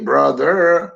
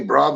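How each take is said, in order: First: It mimics the teacher's way of saying it. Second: It is said in the speaker's own dialect.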